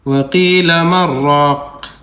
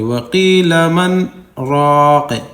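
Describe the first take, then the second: First: The n merges into a doubled r without pause. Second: There is a short silent stop after 'man'. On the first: "मी नून को साइलेंट कर दें और मीम को डायरेक्ट यहाँ पर रा पर तशदीद रख के पढ़ दें" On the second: "आवाज़ को रोक देंगे मन के बाद थोड़ी देर, आवाज़ बंद कर देंगे लेकिन सांस नहीं तोड़ेंगे"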